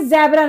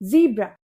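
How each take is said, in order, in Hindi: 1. पहला स्वर 'eh' जैसा सुनाई देता है। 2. पहला स्वर 'ee' जैसा सुनाई देता है। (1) "ये ज़ेब्रा नहीं होता" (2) "इसे हम बोलते हैं ज़ीब्रा"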